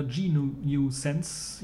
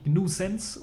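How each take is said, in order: First: "G nu Sense" with the letter G named separately; spelled-out G. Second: "gnu Sense" with gnu said as one word. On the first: Host offers the other reading, "G nu Sense" with G spelled out. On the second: Host offers a distro name's first reading, "gnu Sense" as one word. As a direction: say "gnu Sense", gnu run together as one syllable. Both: Shown as a demonstration. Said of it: "je nachdem, wie man's aussprechen möchte".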